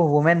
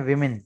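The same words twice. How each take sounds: First: वुमेन said with an "oo" vowel, WOO-men; wrong plural pronunciation. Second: विमेन said with short "i" vowels, WIM-in; correct plural pronunciation. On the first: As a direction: say वुमेन with a rounded first vowel. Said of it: "इसको वुमेन नहीं पढ़ा जाता". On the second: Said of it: "इससे पढ़ते हैं विमेन". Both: Shown as a demonstration.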